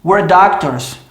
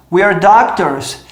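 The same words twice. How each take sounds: First: "We're doctors" with "We're" reduced to "were"; "We're doctors" said as "wer doctors"; sped-up contraction. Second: "we're doctors" with "we're" as "wee-er"; slow, careful "we're doctors"; full contraction. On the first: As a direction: squeeze "We're" into one short syllable before "doctors". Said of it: "falar a frase inteira rápida". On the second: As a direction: keep the long ee in "we're" before "doctors". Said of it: "se eu fizer a contração". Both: Shown as a demonstration.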